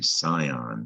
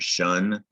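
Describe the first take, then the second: First: It is said as two syllables, sigh-on. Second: It is said as one syllable, shun. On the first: The speaker calls it wrong. "Looks like it should say Scion" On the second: The speaker calls it right. "it's pronounced"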